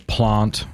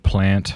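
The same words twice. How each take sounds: First: It is said in a South Australian accent. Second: It is said in a Sydney accent. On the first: "in South Australia, we would say plant" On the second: "instead of plant"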